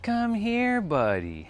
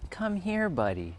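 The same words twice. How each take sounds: First: Lightly voiced neighbor, much higher on come here; a hint of the neighbor's sing-song call; imitating a neighbor. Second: Lightly voiced neighbor calling his dog, high on here; a hint of the neighbor's sing-song come here; imitating a neighbor. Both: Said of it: "That's how that guy speaks".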